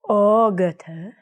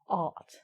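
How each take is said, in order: First: The word is said with extra syllables after it. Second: The word is said as one short syllable. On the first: The speaker calls it wrong. "I say ogata" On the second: The speaker calls it right. "but it's ought"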